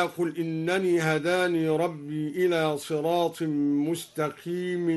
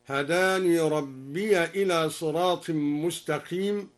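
First: Said in the usual way. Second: Slower recitation, ربي said rabbiya before إلى; open ya in joining. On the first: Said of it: "بفتح الياء وصلا". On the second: Shown as a demonstration. Teacher demonstrates al-Duri's reading, ربي as rabbiya. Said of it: "قرأ الدوري بفتح الياء وصلا".

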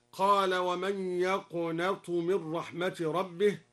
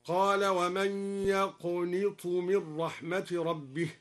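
First: Said in the usual way. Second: يقنط said as "yaqnit", nun with an i vowel, slow recitation; يقنط with a clear "ni" sound; nun with kasra in يقنط. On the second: Shown as a demonstration. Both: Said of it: "قرأ الدوري بكسر النون هكذا".

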